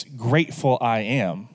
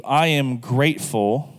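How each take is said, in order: First: Grateful said first and leaned on; stress on grateful. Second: Said in the usual way. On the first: Shown as a demonstration. Pastor shows how the prayer puts Grateful first, stressed. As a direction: put the weight on Grateful at the start. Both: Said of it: "emphasize the word grateful first".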